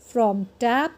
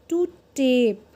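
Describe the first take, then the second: First: "tap" with short a, rising; short vowel. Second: "tape" with long ay, falling; long vowel. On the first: Teacher drills word before silent E, short vowel in "tap". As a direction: say "tap" short, leading on to its partner. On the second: Teacher drills silent E word, long vowel in "tape". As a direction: draw out the ay in "tape". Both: Shown as a demonstration. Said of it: "वो longer और louder हो जाता है".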